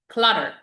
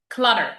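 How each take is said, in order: No difference in how they are said.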